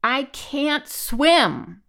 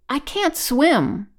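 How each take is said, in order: First: Very slow, drawn-out high roar. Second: High, loud, slow wail; stricken. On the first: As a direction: roar it out helplessly, stretching every word. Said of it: "Then he roared". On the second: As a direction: confess it helplessly, voice raised. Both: A narrator's reading.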